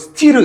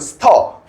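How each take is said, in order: First: It is said as two syllables, 'sti-reu'. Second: It is said as one syllable, 'ster'. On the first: The speaker calls it wrong. "스티르 이렇게 읽으면 안 되고" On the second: The speaker calls it right. "이건 스터"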